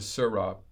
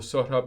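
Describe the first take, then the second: First: The name sounds like the two words Sir Rob. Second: The name is said with its original sounds. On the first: The speaker calls it wrong. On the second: The speaker calls it right.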